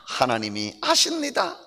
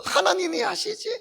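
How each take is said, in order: First: Said in the usual way. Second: High puppet asking lightly. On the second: Acted. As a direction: let the puppet ask it. Puppet voice vs preacher's answer. (높은 인형 목소리로 묻기)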